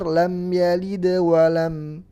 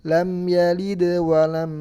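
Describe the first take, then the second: Both takes have the same delivery.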